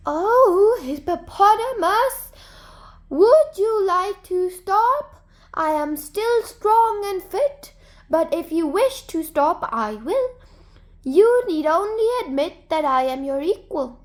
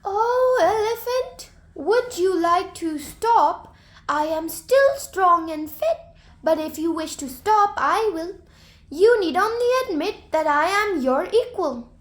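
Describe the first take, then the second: First: High, drawn-out call from far away; soft, faraway voice. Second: Soft, faraway voice. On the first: Hare hidden in a bush teasing Hippopotamus, high and drawn out. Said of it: "making his voice sound soft and drawn out far away". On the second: Hare hidden behind a tree teasing Elephant, high faraway call. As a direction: lure him with a soft distant call. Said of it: "called in his soft, faraway voice". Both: A narrator's reading.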